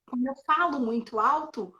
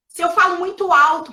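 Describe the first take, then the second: First: Said in the usual way. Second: Raised, loud voice; loud, slightly higher-pitched demonstration; speaking too loud. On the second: Shown as a demonstration. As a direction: push the volume up to convince someone.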